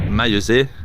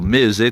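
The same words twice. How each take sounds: First: The name is said the standard, non-local way. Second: The name is said the local Poitou way.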